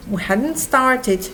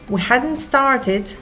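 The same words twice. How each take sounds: The two takes are said the same way.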